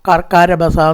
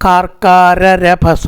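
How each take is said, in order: First: The 'ra' syllable is said only once. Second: The 'ra' syllable is said twice, separately. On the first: The speaker calls it wrong. "എന്ന് പറയരുത്" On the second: The speaker calls it right. "രണ്ട് രായും വേറെ പറയണം"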